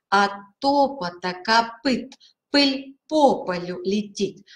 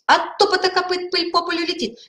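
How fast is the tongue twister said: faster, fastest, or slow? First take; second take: slow; fastest. First: The phrase is said at a slow pace. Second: The phrase is said at the quickest pace. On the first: "Сначала медленно произносим" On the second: "еще быстрее"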